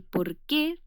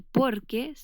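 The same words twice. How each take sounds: First: Por qué with QUÉ stressed and rising; stress on final syllable. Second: Por qué run together with POR stressed; stress on first syllable. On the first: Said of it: "todo juntito y con tilde". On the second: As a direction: punch por, keep qué unstressed. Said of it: "todo juntito y sin tilde". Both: Shown as a demonstration.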